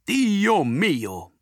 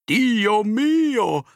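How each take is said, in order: First: Italian exclamation. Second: Put-on Italian accent, high and loud; Italian exclamation. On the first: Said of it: "denn Antonio ist Italiener und sagt nie". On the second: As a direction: cry out like an Italian grocer. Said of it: "denn Antonio ist Italiener". (italienischer Ausruf) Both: A narrator's reading.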